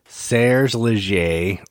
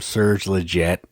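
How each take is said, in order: First: The surname is said in its original, non-American way. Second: The surname is said in an Americanized way.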